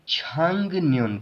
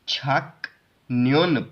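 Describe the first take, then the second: First: The first syllable ends in an ng sound. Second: The first syllable ends in a k sound. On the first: The speaker calls it right. "इसको हम छांग न्योन पढ़ेंगे" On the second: The speaker calls it wrong. "इसको हम छक न्योन पढ़ने की बजाय"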